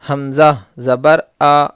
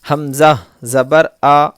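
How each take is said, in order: Both takes have the same delivery.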